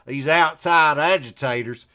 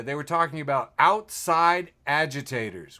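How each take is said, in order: First: Southern accent. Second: Said in the usual way. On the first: Shown as a demonstration. Host mocking the phrase in a Southern accent. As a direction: say "These outside agitators" like a Southern sheriff. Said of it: "Say it again with me with a Southern accent". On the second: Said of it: "Say it again with me".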